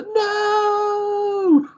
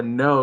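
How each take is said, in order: First: Long, high wailed "no"; imitated wail of a bereaved parent; anguished wail. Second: Said in the usual way. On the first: Shown as a demonstration. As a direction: stretch it into a high, grieving wail. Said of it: "just the wail of it". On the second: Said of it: "It wasn't just like a no".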